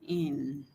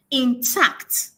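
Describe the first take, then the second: First: "intact" split into two slow syllables, in... tact; transcribed syllable by syllable. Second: "intact" as one word, TACT stressed; light "in", emphatic "TACT" in "intact"; stress on second syllable. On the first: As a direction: say "intact" softly in separate parts, low. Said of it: "which is transcribed". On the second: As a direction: pronounce "intact" with more power on "tact". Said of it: "there is more emphasis on the second syllable". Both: Shown as a demonstration.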